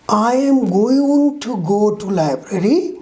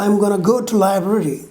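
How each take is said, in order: First: Each word is said in full and separately. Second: The words are contracted and run together. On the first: "is changed into" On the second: "is changed into I'm gonna go to library"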